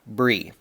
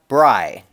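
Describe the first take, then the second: First: The name rhymes with the word free. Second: The name rhymes with the word fry. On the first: The speaker calls it wrong. "not Bree" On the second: The speaker calls it right. "It rhymes with fry"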